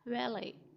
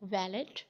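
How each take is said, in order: First: The final t sound is silent. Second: The final t sound is pronounced. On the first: The speaker calls it right. "टी is silent at the end" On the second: The speaker calls it wrong. "This is not वैलेट"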